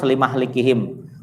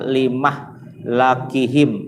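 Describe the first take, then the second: First: The m has an a, the l an i. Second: The m has an a, the l an a. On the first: The time of their destruction was appointed. "Kalau hafaz limah likihim" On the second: The state of their destruction was appointed. "Kalau syu'bah fathah mim sama lam"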